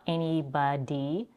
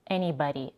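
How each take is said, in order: First: The middle consonant is a full, careful D. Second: The middle consonant is a quick flap. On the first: The speaker calls it wrong. "So not" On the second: The speaker calls it right. "we also have a flap T"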